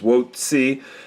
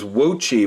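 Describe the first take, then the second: First: The second syllable starts with a 'ts' sound. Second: The second syllable starts with a 'ch' sound. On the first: The speaker calls it right. "the C C I is apparently Ci and not Chi" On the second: The speaker calls it wrong. "I assumed that the C C I was pronounced the same way as uh, Chi in Gucci"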